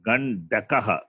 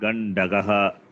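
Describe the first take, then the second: First: The third syllable starts with a k sound. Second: The third syllable starts with a g sound. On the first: The speaker calls it right. "The ka is important" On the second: The speaker calls it wrong. "I'm hearing like that"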